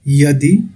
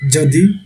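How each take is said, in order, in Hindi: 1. यह शब्द 'y' की आवाज़ से शुरू होता है। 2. यह शब्द 'j' की आवाज़ से शुरू होता है। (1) "परंतु ये लिखा कैसे जाएगा?" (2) "य का उच्चारण कहीं कहीं पे ज की तरह करते हैं"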